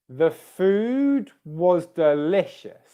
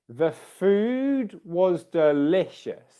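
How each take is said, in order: The two takes are said the same way.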